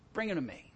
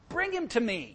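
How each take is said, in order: First: It is read in a calm, plain way. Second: It is read with strong, heated emotion. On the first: The speaker calls it wrong. "I probably didn't read that as well as I should have" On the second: The speaker calls it right. "read it that way, because that's the emphasis"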